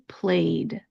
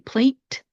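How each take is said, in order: First: The ending is a soft voiced D sound. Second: The ending is a forceful T sound. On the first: The speaker calls it right. "Instead, we're going to say played" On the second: The speaker calls it wrong. "We're not going to say plate"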